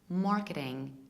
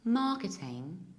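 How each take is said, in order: First: It is said in an American accent. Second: It is said in a British accent. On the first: "in American English" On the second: "in British English"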